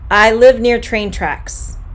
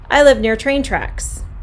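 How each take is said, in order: First: It is said at a normal pace. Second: It is said at a faster pace.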